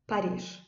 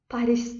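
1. Rus tarzında söyleniyor, sondaki s okunuyor. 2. Azerbaycan tarzında söyleniyor, sondaki s okunuyor. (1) "Rus dilində nə deyirlər?" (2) "Azərbaycan dilində Fransanın paytaxtına Paris deyirik"

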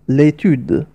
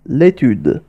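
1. يُحذف حرف العلة في أداة التعريف قبل الاسم. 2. يُحذف حرف العلة في أداة التعريف قبل الاسم.

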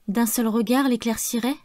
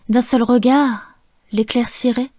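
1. Ça enchaîne sans pause après 'regard'. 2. Il y a une pause après 'regard', qui est accentué. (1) "quatre vers que j'aurais pu prononcer différemment" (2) "faire des pauses et d'accentuer les mots main, bouche, cœur et regard"

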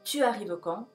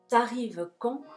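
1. La vocal de 'tu' se pronuncia completa. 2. La vocal de 'tu' se elide y se enlaza. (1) "oficialmente se dice tu arrives" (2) "te la comes un poquito esa u"

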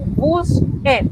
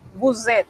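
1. Las palabras se unen con una s sorda. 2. Las palabras se unen con una z sonora, como un zumbido. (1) "no vamos a decir buset" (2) "con una Z bien sonora"

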